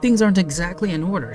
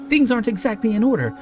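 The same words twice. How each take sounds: First: It is read in a calm, plain tone. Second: It is read in a tense, on-edge tone.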